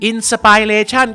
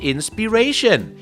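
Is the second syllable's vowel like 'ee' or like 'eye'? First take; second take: eye; ee. First: The second syllable has an 'eye' vowel. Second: The second syllable has an 'ee' vowel. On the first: The speaker calls it wrong. "ก็ผิดสิครับ" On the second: The speaker calls it right. "ต้องเป็น"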